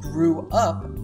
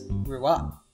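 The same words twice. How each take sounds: First: The two words are said separately, unlinked. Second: The two words are linked into one unit. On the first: "instead of saying grew up" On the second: "Taylor says grew up"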